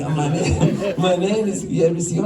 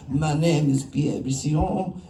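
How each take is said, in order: First: Laughing through the quote; cracking up at his own impression; giggling while repeating the official's name. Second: Slow, mock German accent on a French name; imitating a German-accented festival official. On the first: Real, not acted. Laughing while retelling the call. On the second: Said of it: "I don't know why he sounds German".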